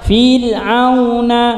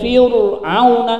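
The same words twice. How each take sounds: First: The r sound is light and thin. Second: The r sound is heavy and thick. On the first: The speaker calls it right. "maka harus dibaca dengan ti tipis" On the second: The speaker calls it wrong. "Enggak boleh"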